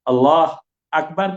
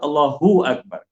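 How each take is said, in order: First: No vowel is heard between 'Allah' and 'Akbar'. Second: An 'u' vowel links 'Allah' to 'Akbar'. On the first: The speaker calls it wrong. "Kena sebut Allahu Akbar" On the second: The speaker calls it right. "Kena sebut Allahu Akbar"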